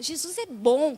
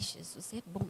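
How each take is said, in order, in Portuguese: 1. Soa firme e seguro, cheio de convicção. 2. Soa hesitante e inseguro, sem convicção. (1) "Não, você fala, Jesus é bom, cara" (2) "Você não fala assim, ai"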